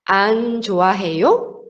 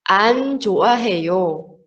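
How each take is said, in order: First: The voice rises at the end. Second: The voice falls at the end. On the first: It is a question. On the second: It is a statement.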